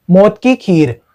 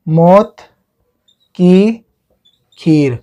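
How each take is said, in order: First: Said in the usual way. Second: Long pause between each word; word-by-word dictation. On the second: Shown as a demonstration. Teacher giving students a new memory trick, word by word. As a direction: dictate slowly, one word at a time.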